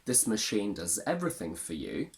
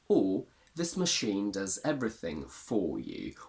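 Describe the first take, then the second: First: 'For' is weak, reduced and unstressed. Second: 'For' is full and strongly stressed.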